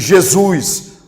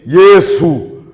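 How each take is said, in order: First: The name is said with a Brazilian Portuguese pronunciation. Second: The name is said with a Hindi pronunciation. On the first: "na pronúncia tupiniquim cearense"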